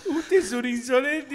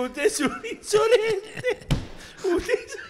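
First: High, slow quote with laughter; mock-stern line said through laughing; retold indignant scolding. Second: Very high, slow, laughing imitation; mock indignation collapsing into laughter; indignant old man. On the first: Old man scolding Marcelito, laughing mock indignation. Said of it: "Le dijo". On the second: Old man scolding Marcelito in cinema, laughing mock outrage. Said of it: "Se paró un viejo arruinado".

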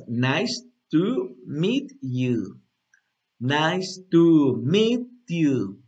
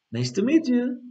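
First: "nice to meet you" very drawn out; slow demo. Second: Higher, fluid "nice to meet you"; joined up. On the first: Teacher repeating the phrase for students, very slowly. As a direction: stretch every word for learners to follow. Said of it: "Una vez más". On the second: Teacher repeating the phrase at speed, joined and higher. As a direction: run it together lightly on a raised pitch. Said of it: "lo puedes como juntar". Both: Shown as a demonstration.

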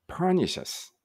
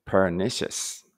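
First: "pernicious" with PER pitched high, then falling; stress on first syllable. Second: "pernicious" stressed on the NI; stress on second syllable. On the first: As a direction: try "pernicious" with the accent moved to the front, on PER. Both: Shown as a demonstration. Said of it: "どっちでしょう？".

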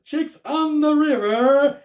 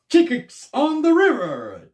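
First: Name shouted much higher and louder, rising; hyped food host repeating the restaurant name; Scott Eats voice. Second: Name shouted much higher and louder, falling; hyped food host announcing the restaurant; Scott Eats voice. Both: Retold or imitated. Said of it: "That's Scott's Eats".

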